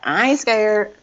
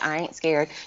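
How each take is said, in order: First: It is said with sassy, confident attitude. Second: It is said flatly, without attitude.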